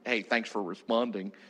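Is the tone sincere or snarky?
snarky. It is said in a snarky, sarcastic tone.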